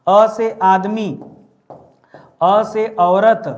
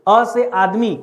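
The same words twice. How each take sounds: First: Each word drawn out very slowly for the class to memorise; slow rote drill. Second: Said in the usual way. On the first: Shown as a demonstration. Teacher drilling students to memorise words, slow and deliberate. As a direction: chant it slowly so they can learn it by heart. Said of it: "कुछ चीजें मैं आपको रटा दे रहा हूँ". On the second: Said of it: "सुनिएगा ध्यान से".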